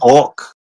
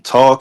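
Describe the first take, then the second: First: It is said with an exaggerated Jersey vowel. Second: It is said with a plain, standard vowel.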